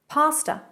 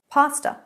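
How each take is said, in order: Both takes have the same delivery.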